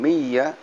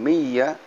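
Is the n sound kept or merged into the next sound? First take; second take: merged; merged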